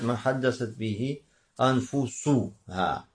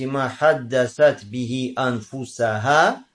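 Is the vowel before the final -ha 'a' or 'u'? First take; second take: u; a. First: The last word ends with the vowel u before -ha. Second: The last word ends with the vowel a before -ha. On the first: The soul talks to the person. "а можно сказать ма хаддасат бихи анфусуха" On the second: The community talks to its own souls. "то есть фатхай анфусаха"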